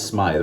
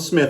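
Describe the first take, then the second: First: The vowel is long, like in 'scythe'. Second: The vowel is short, like in 'with'. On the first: The speaker calls it right. "It rhymes with scythe" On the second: The speaker calls it wrong. "which I mispronounced. I called him Smith"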